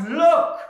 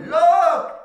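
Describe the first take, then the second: First: Loud high shout of look. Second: Full loud high shout; son's shout that stops the whole warehouse; top of his voice. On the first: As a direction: cry out so everyone turns. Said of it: "one of them shouts". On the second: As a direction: yell it across the warehouse. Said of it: "shouted at the top of his voice". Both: Retold or imitated.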